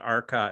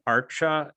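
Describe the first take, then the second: First: The middle consonant is a k sound. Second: The middle consonant is a ch sound. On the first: The speaker calls it wrong. "it's not Arca" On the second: The speaker calls it right. "C is always pronounced C H"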